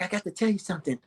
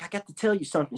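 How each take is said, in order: First: Soft, hesitant repeat; shyly confessing to her boyfriend; weird and shy. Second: Quiet, shy and hesitant; a shy girlfriend confessing softly; weird and shy. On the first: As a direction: say it again, quieter and shyer. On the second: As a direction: mumble it like a nervous secret. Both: Retold or imitated. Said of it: "She was weird and shy".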